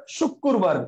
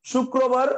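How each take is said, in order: First: শুক্রবার said as "shuk-kur-bar"; colloquial doubled k. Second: Said in the usual way. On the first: Shown as a demonstration. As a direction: double the k and move the r later in শুক্রবার. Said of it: "এখান থেকে উচ্চারণ করে শুক্রবার". (শুক্রবার-কে "শুক্কুরবার" উচ্চারণ) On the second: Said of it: "শুক্রবার থেকে শুক্রবার".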